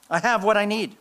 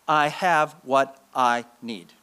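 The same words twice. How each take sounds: First: Higher, more assured; lifted repeat. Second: Slow and deliberate; slow creed. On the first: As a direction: say it with conviction. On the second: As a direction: press each word home. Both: Shown as a demonstration. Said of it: "Five words".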